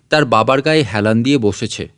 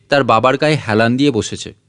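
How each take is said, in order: Both takes have the same delivery.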